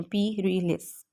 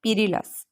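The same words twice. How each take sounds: First: पीरिलस slowly parted as "pi... ri... lis"; syllable by syllable. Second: Said in the usual way. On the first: Shown as a demonstration. Teacher modelling pronunciation, पीरिलस slowly broken into syllables. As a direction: break पीरिलस into three slow syllables. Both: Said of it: "इनकी हमने pronunciation करनी है".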